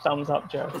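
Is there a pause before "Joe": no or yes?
no. The words run together without a pause. It reads as a rude remark aimed at Joe. The speaker calls it wrong. "not thumbs up, Joe"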